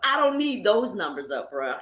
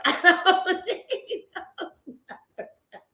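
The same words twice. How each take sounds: First: Said in the usual way. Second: Higher, slow, laughing through it; repeating her point to the man, laughing; laughing disbelief. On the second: Retold or imitated. Repeats the line, laughing this time.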